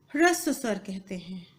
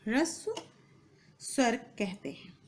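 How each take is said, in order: First: Said in the usual way. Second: Softer, pause after the first word; spaced dictation. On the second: Shown as a demonstration. Teacher repeating term for students' notes, spaced dictation. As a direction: set ह्रस्व apart for note-taking.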